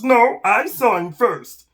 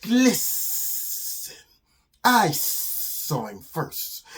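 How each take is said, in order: First: High, loud, slow emphatic lizard; arguing lizard. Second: Slow, drawn-out sibilant snake voice; hissing snake. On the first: Lizard fights the snake over prey, loud and insistent. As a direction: contradict loudly, punching each word. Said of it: "And the lizard says". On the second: Snake claims its prey from the lizard, hissing. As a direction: stretch every S into a long hiss. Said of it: "And the snake says". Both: Acted.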